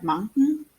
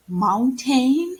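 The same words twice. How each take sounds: First: "mountain" with a reduced second syllable; casual "mountain" ending in a syllabic n; natural pronunciation. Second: "mountain" with a full, stressed "-tain" like "rain"; over-pronounced "mountain", every letter sounded; wrong pronunciation. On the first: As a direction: say "mountain" as MOUN-tn, swallowing the vowel. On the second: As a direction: say "mountain" as moun-TAYN, louder and rising. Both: Shown as a demonstration. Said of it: "pronunciation of a word is not".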